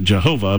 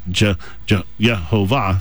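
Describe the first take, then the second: First: The stress is on the second syllable. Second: The stress is on the last syllable. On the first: The speaker calls it wrong. "it's the second syllable" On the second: The speaker calls it right. "with the emphasis on the last syllable"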